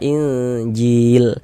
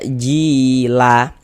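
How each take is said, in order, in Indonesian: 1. Kata ini berakhir dengan huruf l mati. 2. Kata ini berakhir dengan vokal tambahan setelah l. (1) "kita baca Injil" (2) "Jangan dibaca jila, la baru berhenti"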